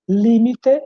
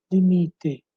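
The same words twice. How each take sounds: First: "Límite" higher, stressed LÍ-mi-te; Spanish stress on first syllable. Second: "limite" stressed li-MI-te, falling; Portuguese stress on MI. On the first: Teacher giving Spanish example, raised, first syllable stressed. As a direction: punch LÍ in "Límite". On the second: Teacher giving Portuguese contrast, stressed on MI. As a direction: lean on MI in "limite". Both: Shown as a demonstration. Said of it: "E aqui outros exemplos".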